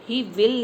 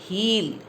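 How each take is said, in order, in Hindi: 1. दोनों शब्द पूरे बोले गए हैं। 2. दोनों शब्द जुड़कर एक अक्षर बन जाते हैं। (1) "ही विल नहीं" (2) "ही विल की जगह क्या आएगा? हील"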